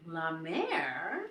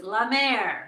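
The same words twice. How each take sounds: First: LA MÈRE low and soft, rising at the end; questioning echo. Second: LA MÈRE pronounced as a firm, falling statement; declaring the name. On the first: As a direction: try out LA MÈRE as a tentative question. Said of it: "And I'm like". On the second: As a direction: offer LA MÈRE as the answer, louder on MÈRE. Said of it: "and she goes". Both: Retold or imitated.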